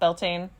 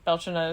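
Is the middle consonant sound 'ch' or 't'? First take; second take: t; ch. First: The middle consonant is a plain 't' sound. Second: The middle consonant is a 'ch' sound. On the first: "some people call it Beltane" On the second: "Belchina is the Gaelic pronunciation"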